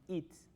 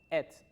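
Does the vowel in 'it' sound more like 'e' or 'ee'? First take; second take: ee; e. First: The vowel in 'it' sounds like 'ee'. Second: The vowel in 'it' sounds like 'e'. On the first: The speaker calls it wrong. "no its" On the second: The speaker calls it right. "se pronuncia como ets"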